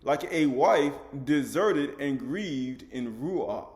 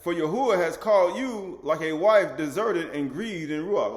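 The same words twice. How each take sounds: First: Very slow, word by word; teaching repeat, extra slow. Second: Slow, loud, emphatic reading; deliberate pulpit recitation; slow scripture reading. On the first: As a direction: drag it out so it sinks in. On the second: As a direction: lean on every word, slowly. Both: Shown as a demonstration. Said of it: "Like what?".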